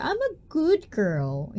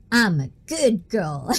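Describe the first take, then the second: First: Put-on slow, high cutesy good girl. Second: Said in the usual way. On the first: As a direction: coo it like a sweet innocent girl. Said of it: "I always try to say it with a straight face". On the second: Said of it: "say it with a straight face".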